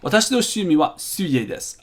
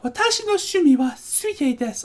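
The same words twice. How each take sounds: First: It is read in his normal voice. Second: It is read in a put-on girlish voice.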